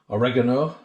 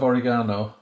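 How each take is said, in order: First: It is said with an American pronunciation. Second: It is said with a British pronunciation.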